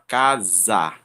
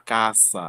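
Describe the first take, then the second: First: The middle consonant is a buzzing Z sound. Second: The middle consonant is a hissing S sound. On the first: The speaker calls it right. "Com o som de Z" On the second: The speaker calls it wrong. "a gente não fala caça"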